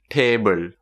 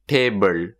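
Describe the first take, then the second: Both takes have the same delivery.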